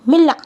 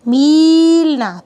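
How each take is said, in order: First: The first vowel is short and quick. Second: The first vowel is long and drawn out. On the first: The speaker calls it right. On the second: The speaker calls it wrong.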